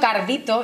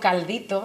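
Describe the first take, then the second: First: The word has an R sound before -dito. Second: The word has an L sound before -dito. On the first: "Estoy diciendo cardito y no caldito de manera intencionada" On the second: "y no caldito"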